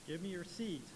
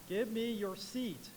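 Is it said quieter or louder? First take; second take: quieter; louder. First: It is said at a quieter, gruff level. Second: It is said at a louder level.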